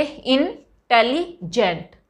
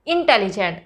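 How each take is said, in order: First: "इंटेलिजेंट" very slowly, in three parts: इन, टेलि, जेंट; syllable by syllable. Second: Said in the usual way. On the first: Shown as a demonstration. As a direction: break "इंटेलिजेंट" with a pause after each part. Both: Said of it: "इंटेलिजेंट को कैसे pronounce करेंगे".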